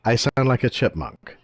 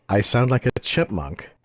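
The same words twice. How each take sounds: First: Sped-up chipmunk voice; high chipmunk-pitched repeat; helium voice. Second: Sped-up chipmunk voice; helium voice. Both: Real, not acted.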